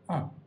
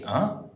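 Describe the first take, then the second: First: The syllable is said with a falling pitch. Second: The syllable is said with a rising pitch. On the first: The speaker agrees. "If you use with a neutral or a fourth, then it can often indicate agreement" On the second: The speaker is surprised. "If you use with a second or a third tone, it can often indicate surprise"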